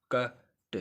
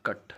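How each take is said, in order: First: "कट" broken in two, "क" then "ट"; split into sounds. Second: Said in the usual way. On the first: Shown as a demonstration. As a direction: say "कट" as two separate bits, a short gap before the ट. ("कट" को तोड़कर, "क... ट" अलग-अलग) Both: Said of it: "इस तरह तो syllabus नहीं बनेगा".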